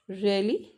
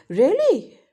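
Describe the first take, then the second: First: Questioning really. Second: "Really?" jumps higher and louder, falling; a loud, high gasp of "Really?"; surprised really. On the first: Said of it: "Okay, that's a question". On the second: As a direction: blurt "Really?" in shock. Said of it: "That's a surprise". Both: Shown as a demonstration.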